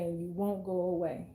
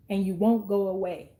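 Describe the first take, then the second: First: The repeated words dropped lower and softer; quiet, lower echo of the line. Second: Said in the usual way. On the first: Shown as a demonstration. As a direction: let the repeat fade down low. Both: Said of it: "And they're purposely trying to push you away".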